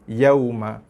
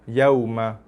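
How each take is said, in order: The two takes are said the same way.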